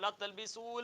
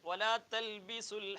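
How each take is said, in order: First: The vowel before the l is long. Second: The vowel before the l is short. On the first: The speaker calls it wrong. "എന്ന് പറയാൻ പാടില്ല" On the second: The speaker calls it right. "അവിടെ നീട്ടാതെയാണ് ഓതേണ്ടത്"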